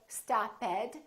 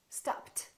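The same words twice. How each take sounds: First: The ending is said as an extra syllable. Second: The ending is said as a T sound. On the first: The speaker calls it wrong. "we don't say stopped" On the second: The speaker calls it right. "It became a T"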